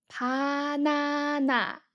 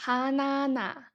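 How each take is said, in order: First: Banana spelled out slowly, each syllable Ba-na-na held evenly; slow syllable blend. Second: Said in the usual way. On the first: Shown as a demonstration. Teacher models the Korean word syllable by syllable, slowly. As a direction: stretch Banana into its three parts as a careful model. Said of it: "So all combined together". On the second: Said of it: "Can you recognize what it is?".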